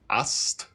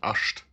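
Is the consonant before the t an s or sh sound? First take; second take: s; sh. First: It has a plain s sound before the t. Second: It has an sh sound before the t. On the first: The speaker calls it right. "It's an S T there, actually" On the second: The speaker calls it wrong. "you don't pronounce it asht"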